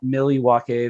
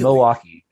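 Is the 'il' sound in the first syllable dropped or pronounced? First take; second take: pronounced; dropped. First: The 'il' sound in the first syllable is pronounced. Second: The 'il' sound is dropped from the first syllable. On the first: This is how outsiders say it. The speaker calls it wrong. "it is not Milwaukee, the thing from Wayne's World" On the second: This is how locals say it. The speaker calls it right. "you take the I L pretty much out of it"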